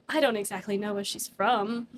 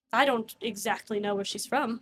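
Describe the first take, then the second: First: The line laughed through; laughing. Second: NPC voice. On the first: Real, not acted. GM repeating the NPC line to the table, laughing. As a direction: repeat it while cracking up. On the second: Acted. GM voicing the NPC for the players, straight. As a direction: deliver it in character, straight-faced. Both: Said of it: "stop with that noise".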